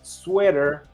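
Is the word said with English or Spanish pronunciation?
English. It is said with English pronunciation. "definitely came from the English"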